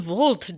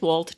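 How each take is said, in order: First: The name begins with a V sound. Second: The name begins with a W sound. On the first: It sounds European and continental. The speaker calls it wrong. "a couple of people pronounce the W as V's as though we were European" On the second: It is the plain American way. The speaker calls it right. "we're just Wolt, just American Wolt"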